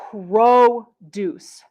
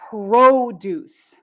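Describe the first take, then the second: First: The stress is on the first syllable. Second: The stress is on the first syllable.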